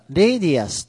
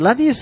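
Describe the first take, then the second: First: The first vowel is an 'ay' diphthong. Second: The first vowel is a plain 'ah' sound. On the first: The speaker calls it right. "一応正確には、レイディアスと読みます" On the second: The speaker calls it wrong. "ラディウスと読む方いらっしゃいますが"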